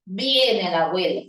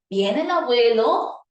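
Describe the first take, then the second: First: "Viene el abuelo" with pitch dropping lower at the end; falling statement on "abuelo"; falling statement tune. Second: "¿Viene el abuelo?" with pitch climbing at the end; rising on "abuelo" as a real question; rising question tune. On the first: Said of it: "Ahora dice". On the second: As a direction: ask it so the end goes up, a yes-no question. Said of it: "Y usted responde, "Sí, no". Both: Shown as a demonstration.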